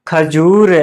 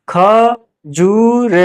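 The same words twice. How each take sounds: First: Said in the usual way. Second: "खजूर" very slow, higher, in separate syllables. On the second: Shown as a demonstration. Teacher spelling out an example, "खजूर" slow and split. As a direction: sound out "खजूर" piece by piece.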